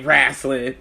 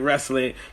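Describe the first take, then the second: First: The word is said in a Southern way. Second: The word is said in a non-Southern way. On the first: The speaker calls it right. "If you're from the South like us, ... you say wrestling" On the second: The speaker calls it wrong. "you don't say wrestling"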